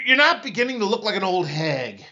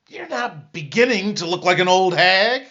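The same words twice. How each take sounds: First: The word beginning is not stressed. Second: The word beginning is stressed.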